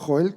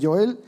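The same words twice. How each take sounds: First: The name begins with a harsh throaty h-sound. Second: The name begins with a soft English-style j. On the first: The speaker calls it right. "en castellano Joel" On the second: The speaker calls it wrong. "perdón"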